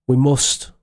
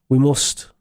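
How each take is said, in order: Both takes have the same delivery.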